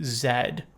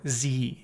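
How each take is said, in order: First: The letter is said the British way, zed. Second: The letter is said the American way, zee.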